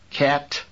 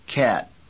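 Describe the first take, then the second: First: The final T is audibly released. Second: The final T has no audible release. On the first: It is repeated after not being understood. "asked for repetition, you probably would say cat" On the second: This is the usual way of saying it. "the air that is collected for the T explosion is released slowly and is not audible"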